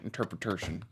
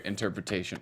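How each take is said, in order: First: INTERPRETATION drawled softly and lower in mock Southern; Blanche voice. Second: Said in the usual way. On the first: Shown as a demonstration. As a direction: drop low on INTERPRETATION, Southern-belle style. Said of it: "That's my interpretation".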